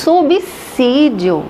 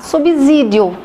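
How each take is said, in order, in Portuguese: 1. O s depois de 'sub' soa como s. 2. O s depois de 'sub' soa como z. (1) "É subsídio" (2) "eu escuto muito gente falar subsídio em telejornais"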